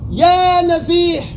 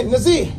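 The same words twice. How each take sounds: First: Respectful address. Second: Bare curt Nazir. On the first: Teacher contrasting a polite address with a rude one. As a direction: call him with respect. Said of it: "is different". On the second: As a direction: call him curtly. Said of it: "It's rude". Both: Shown as a demonstration.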